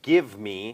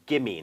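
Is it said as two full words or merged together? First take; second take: two words; merged. First: The two words are said fully and separately. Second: The two words are merged into one reduced word. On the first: "เวลาที่อดัมออกเสียงคำว่า" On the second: "อดัมก็จะรวมเป็น"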